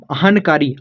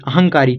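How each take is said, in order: First: अहनकारी with a clear n; letter-by-letter reading. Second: अहंकारी with a nasal ng; joined correct reading. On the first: Teacher repeating the rough reading, clear n in अहनकारी. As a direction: keep ahan separate from kaari in अहनकारी. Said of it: "गलत सही कुछ भी पढ़िए". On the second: Teacher turning it into the real word, ng in अहंकारी. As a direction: blend n into k as ng in अहंकारी. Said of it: "उसको आप बनाइए". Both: Shown as a demonstration.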